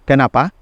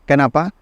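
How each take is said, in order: No difference in how they are said.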